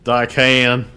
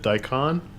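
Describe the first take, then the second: First: The word is said in a Deep South accent. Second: The word is said in a standard accent. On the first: "Deep south" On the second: "Is it daikon?"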